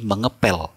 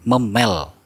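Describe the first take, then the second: First: "mengepel" with menge before pel; "mengepel" with the p intact; correct form. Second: "memel" with p melted into m; "memel" drawn out, no menge prefix; incorrect form. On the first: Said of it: "tapi mengepel". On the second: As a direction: say "memel" slowly, without any p. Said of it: "Kita nggak pernah menyebutkan memel". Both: Shown as a demonstration.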